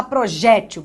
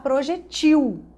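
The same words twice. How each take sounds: First: "projétil" stressed firmly on JÉ; tônica na penúltima. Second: "projetil" stressed on final TIL; tônica na última. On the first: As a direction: punch the JÉ in "projétil". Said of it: "você não vai falar". ("projétil" com ênfase no JÉ) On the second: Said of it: "você vai falar". ("projetil" com ênfase no TIL) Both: Shown as a demonstration.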